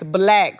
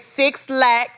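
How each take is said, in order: First: The name is said as one word, 'black'. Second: The name is said as two words, 'six slack'. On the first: The speaker calls it right. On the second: The speaker calls it wrong. "y'all don't say six slack. It's not slack"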